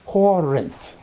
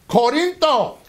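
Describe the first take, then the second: First: Said in the usual way. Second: Corinto said the Greek way, ko-RIN-to, raised; Greek form. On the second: Shown as a demonstration. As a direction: sound out Corinto in Greek, high and clear. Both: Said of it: "you drop the last syllable".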